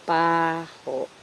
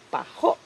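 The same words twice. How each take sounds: First: The stress is on the first syllable. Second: The stress is on the second syllable. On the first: It is the noun meaning smell or odor. "The noun for smell, which is baho, is stressed in the first syllable" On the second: It is the adjective meaning bad-smelling. "the stress for baho, which is an adjective, baho, is on the second syllable"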